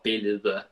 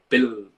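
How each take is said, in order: First: The word is pronounced fully and carefully. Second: The word is pronounced in a reduced, lazy way. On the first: The speaker calls it right. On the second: The speaker calls it wrong.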